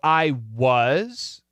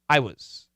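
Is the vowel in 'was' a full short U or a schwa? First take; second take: short U; schwa. First: The vowel in 'was' is a full short U. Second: The vowel in 'was' is a reduced schwa. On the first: "it's possible" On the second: "but more commonly"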